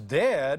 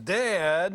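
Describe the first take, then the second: First: The word is said in an embarrassed voice. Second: The word is said in a whiny voice. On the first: The child feels embarrassed in public. "you're embarrassing me in front of my friends" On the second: The child is complaining about a sibling. "my brother is teasing me again"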